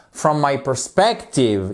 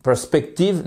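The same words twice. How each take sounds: First: "perspective" punched on SPEC; second-syllable stress. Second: "perspective" without a strong second syllable; wrong stress demo. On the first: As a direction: slowly, hit the middle of "perspective". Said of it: "il faut vraiment accentuer". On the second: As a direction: let the middle of "perspective" go unstressed. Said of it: "Parce que si vous dites". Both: Shown as a demonstration.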